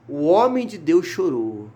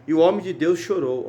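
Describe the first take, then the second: First: Slowed right down for weight; slow emphatic repeat. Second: Said in the usual way. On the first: Real, not acted. Preacher repeating the verse to the congregation, slow and emphatic. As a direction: dwell slowly on each word.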